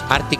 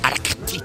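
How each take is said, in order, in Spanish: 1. El sonido k después de la r se omite. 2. El sonido k después de la r se pronuncia. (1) "No es Arctic" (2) "tiene una C entre la R y la T"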